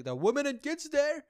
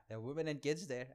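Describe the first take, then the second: First: Higher and louder, preachy tone; mock earnest. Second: Said in the usual way. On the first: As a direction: say it like a sanctimonious slogan. Mocking a repeated talking point.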